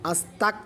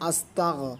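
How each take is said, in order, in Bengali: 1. দ্বিতীয় অক্ষরটি একটি কঠিন k ধ্বনি দিয়ে শেষ হয়। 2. দ্বিতীয় অক্ষরটি gh ধ্বনি দিয়ে শেষ হয়। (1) "এখানে ভুলেও যেন কাফ উচ্চারণ না আসে, আস্তাক যেন না বলি" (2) "আমরা বলবো আস্তাগ"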